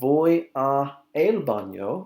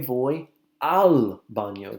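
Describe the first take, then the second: First: The words a and el are said separately. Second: The words a and el merge into al. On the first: The speaker calls it wrong. "instead of saying" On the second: The speaker calls it right. "we say"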